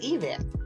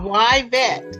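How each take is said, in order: First: The name begins with an 'ee' sound. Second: The name begins with a 'why' sound. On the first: This is how someone else thought the name should be said. The speaker calls it wrong. "one of my teachers said that I was mispronouncing my name. That it should be pronounced Yvette" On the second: This is how the owner says her own name. The speaker calls it right. "It is why vet"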